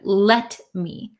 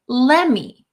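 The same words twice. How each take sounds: First: The t sound is clearly pronounced. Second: The t sound is dropped. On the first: "instead of let me" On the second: "So this T kind of disappears in let me. So uh, a lot of the times Americans will say let me"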